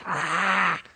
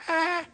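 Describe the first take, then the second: First: Imitated cougar snarl, a long "ah"; cougar roar. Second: Tiny, high-pitched mock roar; little bear roar. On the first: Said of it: "he does his". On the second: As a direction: squeak out a small, soft cub's roar. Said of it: "he raises up on his two little paws and he goes".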